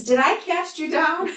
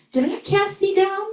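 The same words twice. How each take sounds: First: Retold cry. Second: Put-on high, ringing call to the dead boy; loud cry. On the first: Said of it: "makes him alive and says". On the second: A narrator's reading. Jesus calling to the dead child, high ringing cry. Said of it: "cried with a loud voice".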